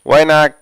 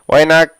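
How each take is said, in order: The two takes are said the same way.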